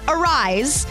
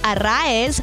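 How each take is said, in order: First: The name is said like 'a-rise'. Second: The name is said like 'ah-rah-ez'. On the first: The speaker calls it wrong. "not Arise" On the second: The speaker calls it right. "which is how you say it"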